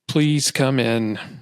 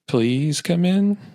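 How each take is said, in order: First: It is said with annoyance and dislike. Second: It is said with fear.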